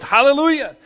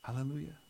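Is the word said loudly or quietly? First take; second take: loudly; quietly. First: The word is shouted out loudly with energy. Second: The word is said quietly and without energy. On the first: The speaker calls it right. "It's always hallelujah. ... say it in a loud voice" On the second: The speaker calls it wrong. "I don't ever hear them go like this"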